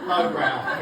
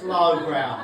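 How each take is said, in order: First: "low brow" repeated low, falling. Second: "low brow" dropped low in pitch; "low brow" in a lower, slower voice. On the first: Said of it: "'Cause it's low brow". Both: Shown as a demonstration.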